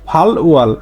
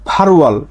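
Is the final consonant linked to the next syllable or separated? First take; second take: separated; linked. First: The final consonant is said separately before the vowel. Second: The final consonant links into the next syllable. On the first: The speaker calls it wrong. "যারা নতুন শুরু করবে ওরা উচ্চারণ করবে" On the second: The speaker calls it right. "এটা হচ্ছে সঠিক উচ্চারণ"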